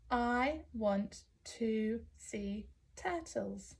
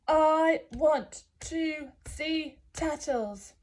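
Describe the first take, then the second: First: It is said in a normal voice. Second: It is said in a big giant voice.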